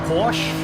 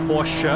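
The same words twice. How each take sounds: Both takes have the same delivery.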